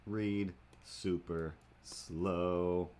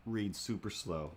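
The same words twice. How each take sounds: First: Very slow drawl. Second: Said in the usual way. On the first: Shown as a demonstration.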